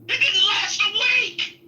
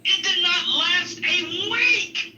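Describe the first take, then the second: First: Shouting punchline. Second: Slow, laughing repeat. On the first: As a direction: blurt it out at full volume. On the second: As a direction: drag it out through a laugh. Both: Real, not acted.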